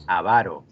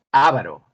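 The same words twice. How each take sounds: First: "avaro" stressed as a-VA-ro; middle-syllable stress. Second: "avaro" stressed as Á-va-ro; first-syllable stress. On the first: Teacher repeats the other student's answer, "avaro" as a-VA-ro. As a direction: lean on VA in "avaro". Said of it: "y el otro dijo". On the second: Teacher repeats one student's answer, "avaro" as Á-va-ro. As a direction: punch the opening A of "avaro". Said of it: "Uno dijo". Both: Shown as a demonstration.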